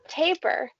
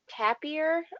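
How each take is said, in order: First: The word ends with a plain "er" sound. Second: The word ends with an "eer" sound. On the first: The speaker calls it right. "but taper" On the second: The speaker calls it wrong. "But I was saying tapir, ... using the ear part"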